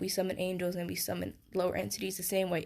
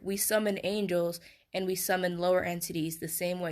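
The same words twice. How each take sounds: First: It is spoken at a normal, quicker pace. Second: It is spoken at a slower, deliberate pace.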